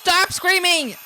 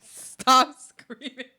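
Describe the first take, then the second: First: High, loud, furious yell; shouted command. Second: Very slow, stretched-out yell; dragged-out plea. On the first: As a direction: scream him into silence. Yelling at Mink to stop. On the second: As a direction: draw every word out like a slowed tape. Slow warped repeat of plea. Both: Acted.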